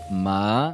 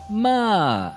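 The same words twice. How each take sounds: First: The pitch glides up from low to mid. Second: The pitch glides down from high to low. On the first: It means hemp. "um tom deslizante de baixo para médio" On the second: It means to scold. "um tom deslizante de alto para baixo"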